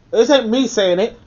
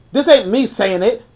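Both takes have the same delivery.

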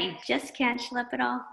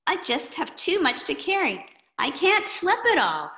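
First: Said in the usual way. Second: Put-on higher, weary boy voice; a kid complaining he carries too much; overloaded kid. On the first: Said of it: "Have you ever felt like that?".

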